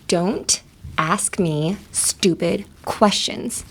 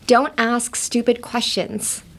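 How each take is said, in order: First: Each word is separated, angry and clipped. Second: The words flow together smoothly.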